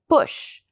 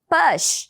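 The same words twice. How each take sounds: First: The vowel is a short 'u' sound. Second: The vowel sounds like an open 'a'. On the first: The speaker calls it right. "a vogal aqui não é A, e sim U... um U um pouco mais curto" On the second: The speaker calls it wrong. "a gente acha que o U sempre vai ter som de A"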